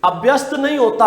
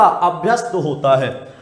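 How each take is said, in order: First: अभ्यस्त said with a short a, abhyast; wrong pronunciation. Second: अभ्यस्त said with a long opening aa, aabhyast; correct pronunciation. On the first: Teacher showing students the wrong way: अभ्यस्त with a short a. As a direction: give the wrong form अभ्यस्त with a short opening a, then reject it. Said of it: "पहले वाले अशुद्धि". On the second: Teacher giving students the correct form: अभ्यस्त with a long aa. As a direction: stretch the first vowel of अभ्यस्त into a long aa. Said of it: "दूसरे शुद्धि". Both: Shown as a demonstration.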